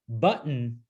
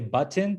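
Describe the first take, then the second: First: The middle sound is a glottal stop. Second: The middle sound is a clear t. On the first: "that's a glottal stop right there" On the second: "that's not a glottal stop"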